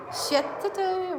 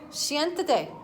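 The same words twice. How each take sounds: First: Siéntate slurred as "setate", first syllable flattened; Siéntate fumbled as "setate", wrong Spanish guess; wrong Spanish try. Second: Siéntate as "shien-dah-tay", copied carefully after the helper; Siéntate repeated with the helper's Spanish sounds; corrected Spanish. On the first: Owner guessing Spanish for the puppy, fumbled "setate". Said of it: "How do you say that in Spanish?". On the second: Owner repeats the helper's Spanish command to the puppy. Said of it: "Uh, siéntate". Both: Real, not acted.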